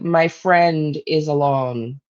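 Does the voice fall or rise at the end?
fall. The voice falls at the end.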